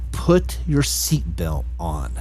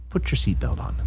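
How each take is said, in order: First: It is screamed very loudly. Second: It is said quietly.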